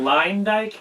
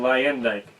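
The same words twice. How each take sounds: First: The name is said without the E sound. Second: The name is said with the E sound.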